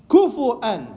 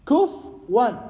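First: A u vowel after f, then a glottal stop. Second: No vowel after f, then a w sound. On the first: "الفاء عفوا مضمومة مع الواو المهموزة همزة" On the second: "الفاء ساكنة مع الواو"

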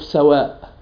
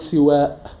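First: The first vowel is a; the final vowel is long. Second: The first vowel is i; the final vowel is long. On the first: "فتح السين مع مد الألف" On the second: "كسر السين مع مد الألف"

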